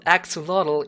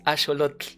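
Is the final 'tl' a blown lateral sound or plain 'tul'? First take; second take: plain tul; blown lateral. First: The final syllable ends in a plain 'tul' sound. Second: The final 'tl' is air blown past the tongue's sides. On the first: The speaker calls it wrong. "it's not axolotl" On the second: The speaker calls it right. "it's axolotl"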